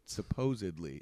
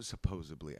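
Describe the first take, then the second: First: "Supposedly" with a clear d, "suh-POH-zid-lee"; corrected pronunciation. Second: "supposedly" said with a b, as "supposably"; mispronunciation. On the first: Shown as a demonstration. Actor fixing his slip says "Supposedly" with a careful d. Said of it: "I notice it every time and I fix it". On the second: Real, not acted. Actor slips and says "supposedly" as "supposably", mispronounced. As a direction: say "supposedly" as "suh-POH-zuh-blee". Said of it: "I hate that, that I actually".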